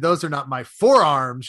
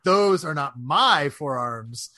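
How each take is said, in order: First: The stress is on "forearms". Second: The stress is on "my".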